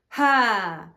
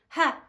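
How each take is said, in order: First: The sound comes deep from the lower chest. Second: The sound is pushed from the throat. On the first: The speaker calls it right. "it's coming from a lower chamber" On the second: The speaker calls it wrong. "the ha isn't coming from your throat"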